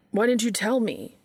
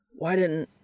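First: Higher, louder anguished question; upset outburst. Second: Said in the usual way. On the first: A narrator's reading. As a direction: let the hurt burst out. Brother's distress breaks through.

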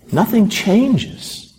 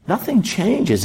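First: Drawn out, higher; weighty and slow; slow emphasis. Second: Nothing stressed, falling close; firm, final repeat; falling emphasis on Nothing. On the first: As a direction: lean on it slowly. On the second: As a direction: plant "Nothing" then let it drop. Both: Shown as a demonstration.

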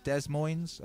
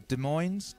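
First: "Des Moines" as dez-MOINZ, first S sounded; trying another pronunciation. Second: "Des Moines" as duh-MOINZ, slow and questioning; trying a pronunciation. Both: Shown as a demonstration. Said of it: "How do you say Des Moines?".

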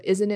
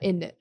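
First: Said in the usual way. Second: "Isn't it" squashed into innit; words fused together. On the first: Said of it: "instead of". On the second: Shown as a demonstration. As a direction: drop the middle of "Isn't it", making innit. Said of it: "it'll be like".

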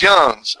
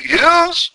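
First: "yuns" short, as YUNZ with an uh; yuns with short vowel. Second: Higher, stretched questioning "yoons", YOONZ; yoons with long oo. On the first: Carolina fellow correcting the guess, "yuns" as YUNZ. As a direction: say "yuns" quickly, rhyming with buns. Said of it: "And he said, No". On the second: Asking a Carolina fellow the word, "yoons" as YOONZ. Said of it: "Is it "yoons". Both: Retold or imitated.

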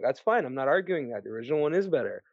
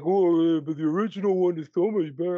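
First: Lower, measured agreement; settled, unargumentative reply; calm concession. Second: Fast, put-on contrarian voice; mock objector. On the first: Acted. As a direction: concede the point evenly, dropping in pitch. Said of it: "I'm like". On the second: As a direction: mimic a whiny know-it-all's pushback. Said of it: "and you're like".

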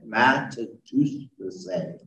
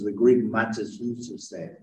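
First: Matatusese spelled out slowly, syllable by syllable; slow careful Greek word. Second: Said in the usual way. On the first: Shown as a demonstration. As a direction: say matatusese slowly and clearly, every syllable separate. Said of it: "the words to make disciple is the Greek matatusese".

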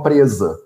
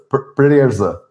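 First: Said in the usual way. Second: "presa" said as if tongue-tied; imitated tongue-tie. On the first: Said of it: "Eu, eu pronunciava como". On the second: Shown as a demonstration. Recalling how he mispronounced as a small child, "presa" tongue-tied. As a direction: trip the r in "presa" with a stuck tongue. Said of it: "como se eu tivesse a língua presa".

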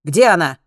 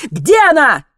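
First: Short, loud demand; barked question. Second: High, very loud demand; shouted question. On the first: Zlotan demands to know where she is, barking. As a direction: bark it like an order. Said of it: "пролаял Злотан". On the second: Alex demands to know where she is, shouting. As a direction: yell it to force an answer. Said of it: "крикнул Алекс". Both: A narrator's reading.

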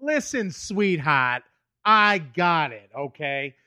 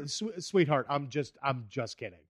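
First: Slow, drawn-out patronizing tone; slow condescending Boston guy. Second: Softly, sincerely, fading away; a quiet sheepish sorry; honest soft apology. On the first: Shown as a demonstration. Boston guy brushing off woman, slow condescension. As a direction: talk down to her slowly. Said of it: "where you're like". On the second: Retold or imitated. Comic to upset woman, quiet sincere apology. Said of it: "but I was just honest".

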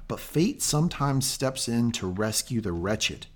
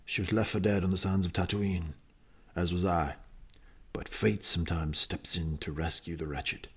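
First: Said in the usual way. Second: Put-on low, rough-edged New Zealand accent, lightly done; hammed-up New Zealand accent impression of Boba Fett. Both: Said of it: "Not a great impression".

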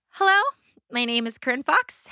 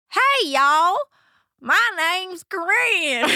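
First: Said in the usual way. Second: Loud, high Southern drawl; big, drawn-out Southern twang on a pageant stage; Southern accent. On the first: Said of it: "What I do is I go". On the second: Retold or imitated. Child contestant showing off accents to a pageant audience, exaggerated Southern accent. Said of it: "I will be doing accents".

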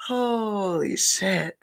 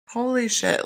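First: Slow, drawn-out stunned gasp of words; stunned holy shit. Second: Said in the usual way. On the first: Retold or imitated. Reacting to MJ's video, slow stunned disbelief. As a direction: let it hang in disbelief.

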